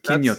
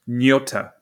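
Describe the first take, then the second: First: The word starts with a K sound. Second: The word starts with no K sound. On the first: The speaker calls it right. "if the K was silent, but apparently it's not" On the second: The speaker calls it wrong. "with the silent K"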